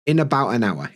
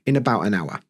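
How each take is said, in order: First: The T in about is dropped and linked. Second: The T in about is dropped and linked.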